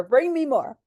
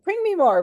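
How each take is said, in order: First: Eager demand. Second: High, loud, eager demand. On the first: To the nurses, raised eager repeat. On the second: To the nurses, high loud eager demand. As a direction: bark it out, hungry for more. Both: Retold or imitated. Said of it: "I'd be like".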